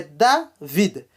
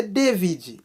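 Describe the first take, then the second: First: "David" slowly as DA, VEED; correct pronunciation demo. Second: "David" as DEH-vee-jee; wrong pronunciation demo. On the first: Teacher correcting to the Haitian way, slow syllabled pronunciation. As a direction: split "David" in two, open a, final d. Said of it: "é David". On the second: Teacher showing how not to say it, DEH-vee-jee pronunciation. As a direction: say "David" with an e first and a "ji" ending. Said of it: "não é David". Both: Shown as a demonstration.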